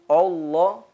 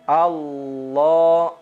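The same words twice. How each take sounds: First: The first vowel is rounded toward an o sound. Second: The first vowel is an open a sound. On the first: The speaker calls it wrong. "Jangan kita membaca o" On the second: The speaker calls it right. "Harusnya dibaca adalah a"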